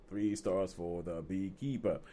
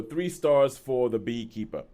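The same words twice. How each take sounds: First: Low, slow and soft repeat; softly drawn-out sign-off; hushed echo. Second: Said in the usual way. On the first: Real, not acted. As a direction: echo the verdict quietly, drawing it out. Echoes own announced rating, softly.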